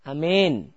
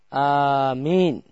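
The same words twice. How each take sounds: First: The long vowel is bent toward an e sound. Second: The first vowel is long and the m single. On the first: "pakai E, imalah" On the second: "hamzahnya panjang, mimnya tidak bertasydid"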